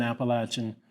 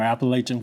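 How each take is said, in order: First: Appalachian with a short A in the third syllable; short-A pronunciation. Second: Appalachian with "lay" as the third syllable; long-A pronunciation. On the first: Speaker honoring Carolyn's roots, Appalachian said with a short A. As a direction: say Appalachian with "lat" rather than "lay". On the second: Speaker offering the other variant, Appalachian said with a long A. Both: Shown as a demonstration. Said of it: "whichever way you want to pronounce it".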